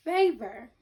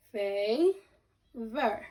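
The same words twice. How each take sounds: First: Said in the usual way. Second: "Favor" as long "fay", pause, "ver"; two separate syllables. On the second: Shown as a demonstration. Teacher breaking down favor for pupils, syllable by syllable. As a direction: stretch "fay" in "Favor", then add "ver". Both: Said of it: "break down favor into two syllables".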